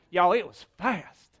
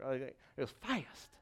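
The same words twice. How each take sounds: First: Broad southern "Y'all, it was fast"; southern accent. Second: Said in the usual way. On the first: Shown as a demonstration. Pastor hamming up a southern accent for laughs. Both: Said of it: "that sounded southern".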